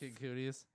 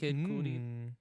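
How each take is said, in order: First: The second word sounds like 'Cooties', ending in 'teez'. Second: The second word sounds like 'Cudi', ending in 'dee'. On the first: The speaker calls it wrong. "pronounced every rapper's name wrong" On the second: The speaker calls it right. "Is that how you pronounce this rapper?"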